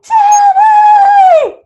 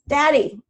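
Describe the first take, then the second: First: It is said loudly and insistently. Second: It is said softly and calmly.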